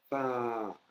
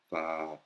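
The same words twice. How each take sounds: First: The word is said on a high tone. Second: The word is said on a lower tone. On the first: The speaker calls it right. "avec une accentuation aiguë" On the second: The speaker calls it wrong. "c'est pas pa"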